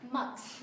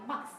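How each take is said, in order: First: "Max" with both K and S sounded at the end; correct full ending. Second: "Max" as learners say it, with the final cluster simplified; wrong ending. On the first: Shown as a demonstration. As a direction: model "Max" finishing on a clear K plus S. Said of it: "mà là Max". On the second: Retold or imitated. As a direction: imitate an incomplete ending on "Max". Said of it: "không phải là Max mà là Max".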